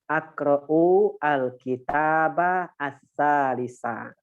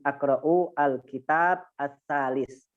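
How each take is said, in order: First: The final vowel endings of the nouns are pronounced. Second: The final vowel endings of the nouns are dropped.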